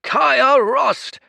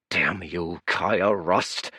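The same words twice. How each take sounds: First: High, loud desperate call of her name; cried out. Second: Grumbling curse, barely raised; muttered curse. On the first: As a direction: yell her name so she turns. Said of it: "he cried". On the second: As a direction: curse her name under your breath. Exhausted priest curses the girl. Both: Acted.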